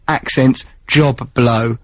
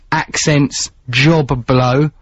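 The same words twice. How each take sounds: First: "Accents Job Blow" slower still, "Job" held so "Job Blow" sounds like Joe Bloggs; slow, pointed repeat. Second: "Accents Job Blow" read slowly, leaning on "Job" with a held b; slow headline read. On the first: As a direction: stretch "Job" and land on "Blow". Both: Shown as a demonstration. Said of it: "there's a joke in there".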